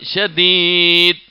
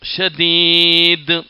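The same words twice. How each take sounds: First: The final d stops flat with no bounce. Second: The final d ends with an echoing bounce. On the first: The speaker calls it wrong. "ആ ഒരാൾ ഷദീദ് എന്ന് ഓതിയാ തെറ്റാ" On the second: The speaker calls it right. "ഹുറൂഫുൽ ഖൽഖല, ... അതിൽ ദാലാണത്"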